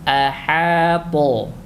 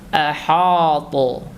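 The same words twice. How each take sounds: First: The h sound is light and thin. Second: The h sound is heavy and thick. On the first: The speaker calls it right. "tipis dia" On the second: The speaker calls it wrong. "dia ikut menebal karena ada huruf to setelahnya"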